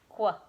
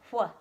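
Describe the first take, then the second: First: It starts with a hard 'kw' sound. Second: It is a breathy blown 'hw' sound. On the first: The speaker calls it wrong. "not qua, like the Q U sound" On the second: The speaker calls it right. "So W H says wh"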